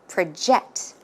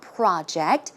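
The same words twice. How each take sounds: First: The stress is on the second syllable. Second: The stress is on the first syllable.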